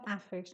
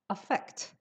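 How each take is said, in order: First: The first vowel is a full open 'ah'. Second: The first vowel is a short, weak schwa. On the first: The speaker calls it wrong. "the first one is not affix. No, the pronunciation is a schwa. Don't say ah" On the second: The speaker calls it right. "the pronunciation is a schwa"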